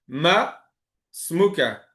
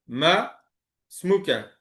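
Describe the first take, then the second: The two takes are said the same way.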